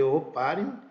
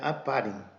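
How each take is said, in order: First: The name begins with an "oh" vowel. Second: The name begins with an "ah" vowel. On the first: This is how it is said in Brazil. "a gente fala aqui Oparin" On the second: This is how it is said in Russia. "lá é Aparin"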